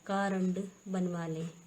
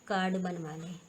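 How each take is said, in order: First: A full vowel separates the r and d. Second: The r runs straight into the d. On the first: The speaker calls it wrong. "कारण कुछ नहीं होता है" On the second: The speaker calls it right. "हमारा होता है ये कार्ड"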